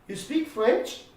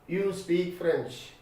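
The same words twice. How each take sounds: First: The voice rises at the end, as a question. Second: The voice falls at the end, as a statement.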